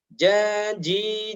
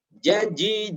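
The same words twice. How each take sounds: First: The short vowels are stretched out long. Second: The short vowels are read quickly. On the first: The speaker calls it wrong. "tidak boleh seperti ini" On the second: The speaker calls it right. "huruf pendek harus dibaca cepat"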